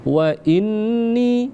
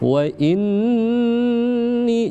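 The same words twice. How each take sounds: First: The nasal n is cut short without holding. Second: The nasal n is held for two beats. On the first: The speaker calls it wrong. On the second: The speaker calls it right. "ditahan dulu dua harakat selama dua ketukan"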